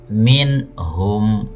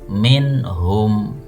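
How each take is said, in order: No difference in how they are said.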